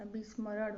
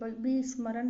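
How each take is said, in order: First: विस्मरण ending in retroflex flap; correct pronunciation. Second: विस्मरण ending in dental n, loud; wrong pronunciation. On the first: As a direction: curl the tongue at the end of विस्मरण. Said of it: "होता है". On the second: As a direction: close विस्मरण with a plain n. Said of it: "नहीं होता". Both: Shown as a demonstration.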